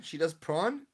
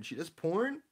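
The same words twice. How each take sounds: First: She does prawn, with prawn said with a short ah vowel and an r. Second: She does porn, with porn said as the word porn. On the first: Correcting herself to chat, prawn with an ah vowel. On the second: Misheard word repeated back to chat, porn. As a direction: porn heard as an or-vowel word. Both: Shown as a demonstration. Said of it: "Sorry, prawn?".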